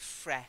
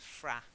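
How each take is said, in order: First: The vowel sounds like the one in 'bed'. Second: The vowel sounds like the one in 'cat'. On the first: The speaker calls it wrong. "I haven't heard of fre" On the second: The speaker calls it right. "only ever heard of fra"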